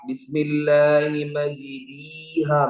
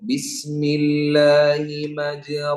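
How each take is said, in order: First: The long vowel is a plain 'ee'. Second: The long vowel is a plain open 'a'. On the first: "ഇത് യാ ആണ് എങ്ങനെ ഉണ്ടാകാ?" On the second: "അതാണ് അലിഫ്"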